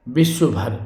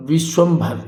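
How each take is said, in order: First: विश्व भर as "vishva-bhar"; no nasal m. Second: विश्वम्भर as "vish-vam-bhar"; nasal m added. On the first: Teacher showing the mistake, विश्व भर lacking the nasal. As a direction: say विश्व भर without any "m". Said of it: "ये बिल्कुल गलत होगा". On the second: Teacher giving the correction, विश्वम्भर with "vam" in the middle. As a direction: sound the "m" in विश्वम्भर. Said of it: "विश्वम्भर ये होगा". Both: Shown as a demonstration.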